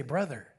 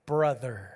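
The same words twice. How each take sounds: First: "brother" very low and soft, almost breathed; softer, low "brother"; near-whispered brother. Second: "Brother." said low and soft, falling; a hushed, respectful "Brother."; reverent hush. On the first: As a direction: let "brother" fall away, hushed. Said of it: "You say". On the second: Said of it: "you say". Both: Shown as a demonstration.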